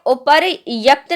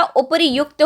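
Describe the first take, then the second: First: उपर्यक्त said with no u sound, upar-yakt; wrong form. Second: उपर्युक्त said with a clear u, upar-yukt; correct form. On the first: Teacher showing students the misspelt word, उपर्यक्त with no u. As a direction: give the wrong उपर्यक्त with a short a after y. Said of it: "उपर्यक्त नहीं होता". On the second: Teacher giving students the right word, clear yu in उपर्युक्त. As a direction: stress the yu in उपर्युक्त. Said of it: "उपर्युक्त होता है". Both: Shown as a demonstration.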